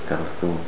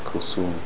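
First: The middle consonant is a th sound. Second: The middle consonant is an s sound. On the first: The speaker calls it right. "This is a little bit more effort to pronounce with that" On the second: The speaker calls it wrong. "even in the slang Arabic language, they say that sometimes"

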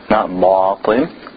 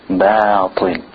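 First: The b has a thick, o-like vowel. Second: The b has a thin, bright a vowel. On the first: The speaker calls it wrong. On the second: The speaker calls it right. "with an A sound"

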